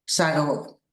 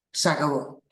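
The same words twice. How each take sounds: The two takes are said the same way.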